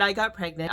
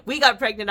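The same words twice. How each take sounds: First: Said in the usual way. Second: Louder and higher, still laughing; laughing correction. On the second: Real, not acted. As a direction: laugh as you say "We got pregnant", bright and high. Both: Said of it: "and, well, I got pregnant".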